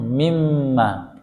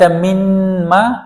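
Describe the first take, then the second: First: The n merges fully into the m. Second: The n is pronounced separately before the m. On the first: The speaker calls it right. "Langsung mimma. Nunnya tidak dibaca" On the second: The speaker calls it wrong. "Apa dibaca minma atau mimma?"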